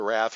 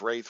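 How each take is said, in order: First: The vowel is short, as in bath. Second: The vowel is long, as in day. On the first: The speaker calls it wrong. "I think I grew up calling it a wrath" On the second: The speaker calls it right. "I think wraith is the correct pronunciation"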